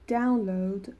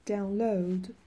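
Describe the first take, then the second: First: The stress is on the first syllable. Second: The stress is on the second syllable. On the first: It is used as a noun. "وقتی که استرس رو سیلاب اولشون باشه کار معنی اسمی دارن" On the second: It is used as a verb. "وقتی که استرس روی سیلاب دومشون باشه فعل هستن"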